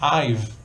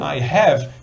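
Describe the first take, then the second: First: It is contracted into one short syllable. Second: It is said as two full words. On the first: "try throwing some I've in between" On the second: "Instead of saying"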